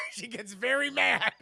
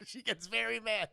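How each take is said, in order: First: Louder, high, laughing through it. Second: Said in the usual way. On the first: Real, not acted. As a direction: crack up while saying it. Laughing retelling.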